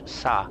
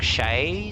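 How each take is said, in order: First: The name begins with a plain 's' sound. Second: The name begins with a 'sh' sound. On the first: The speaker calls it right. "the actual proper pronunciation is Sa" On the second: The speaker calls it wrong. "you go like Shay, something like that"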